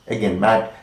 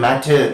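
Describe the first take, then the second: First: The final t is held without audible release. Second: The final t is released with an audible vowel. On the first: The speaker calls it right. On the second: The speaker calls it wrong. "We don't say matter"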